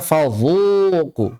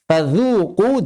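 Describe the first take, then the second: First: "fadzuqu" slow, dz thickened into zha; mistaken heavy zha. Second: "Fadzuqu" with a light dz, pitched up; thin dhal. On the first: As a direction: draw out a dark emphatic "zhu" in "fadzuqu". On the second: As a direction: keep the dz in "Fadzuqu" thin at the teeth. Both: Shown as a demonstration. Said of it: "jangan dibaca".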